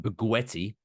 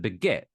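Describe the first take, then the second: First: The word is pronounced as spelt in English. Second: The word is pronounced the French way. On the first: The speaker calls it wrong. "you don't try to do like as it's spelt in English" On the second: The speaker calls it right. "pronounce the word as it is pronounced in the mother tongue"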